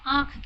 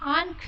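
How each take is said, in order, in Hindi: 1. स्वर केवल अनुनासिक है, उसमें कोई n ध्वनि नहीं है। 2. स्वर के बाद एक स्पष्ट n ध्वनि आती है। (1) "उस इसमें न नहीं आता है। इसे हम सिर्फ नाक से ही ध्वनि निकालते हैं" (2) "हम आंख नहीं कहते हैं"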